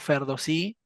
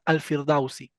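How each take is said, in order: First: It is said 'Ferdowsi', without an article. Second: It is said 'Al-Firdausi', with an article. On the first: This is the Persian pronunciation. "en persa pronunciamos Ferdowsi" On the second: This is the Arabic pronunciation. "los árabes pro- pronuncian Al-Firdausi"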